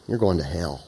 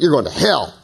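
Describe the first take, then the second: First: "you're" dropped low and soft, the rest trailing; mock-stern "you're going to hell" with the weight on "you're"; stress on you're. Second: Corrected take, weight falls on "hell"; stress shifted to hell. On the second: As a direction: land the word "hell" harder. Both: Shown as a demonstration. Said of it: "gotta get the emphasis in the right syllable".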